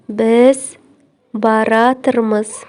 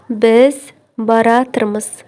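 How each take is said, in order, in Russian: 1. Глагол слит в одно сокращённое слово. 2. Глагол слит в одно сокращённое слово.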